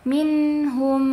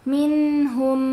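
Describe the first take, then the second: No difference in how they are said.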